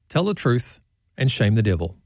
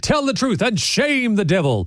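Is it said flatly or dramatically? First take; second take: flatly; dramatically. First: It is said flatly, without any pathos. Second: It is said dramatically, like a theatrical preacher.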